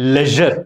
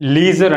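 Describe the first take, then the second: First: The first vowel is a short 'e' sound. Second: The first vowel is a long 'ee' sound. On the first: The speaker calls it right. "దీని actual pronunciation వచ్చేసేసి లెజర్" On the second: The speaker calls it wrong. "చాలా మంది దీనిని లీజర్ అంటారు"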